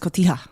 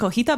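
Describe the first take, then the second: First: The t comes before the j sound. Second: The t and j sounds are swapped. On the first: The speaker calls it right. "but it's cotija" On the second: The speaker calls it wrong. "I always want to say cojita"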